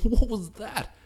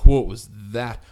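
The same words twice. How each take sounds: First: It sounds like amazed, impressed disbelief. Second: It sounds like a frustrated, groaning complaint. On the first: The play was spectacular. "two different complete tones of voice" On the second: The play was a bad mistake. "two different complete tones of voice"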